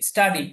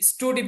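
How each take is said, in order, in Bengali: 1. প্রথম স্বরধ্বনিটি 'uh'-এর মতো শোনায়। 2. প্রথম স্বরধ্বনিটি 'oo'-এর মতো শোনায়। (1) "সরাসরি আ আকারের উচ্চারণ দেয়। যেমন এখানে দিয়েছে স্টাডি" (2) "আবার অনেকে যে স্টুডি পড়বে এখানে"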